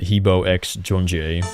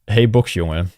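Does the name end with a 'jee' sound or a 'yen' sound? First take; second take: jee; yen. First: The name ends with a 'jee' sound. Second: The name ends with a 'yen' sound. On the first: The speaker calls it wrong. "The best one I've heard is" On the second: The speaker calls it right. "is the correct pronunciation"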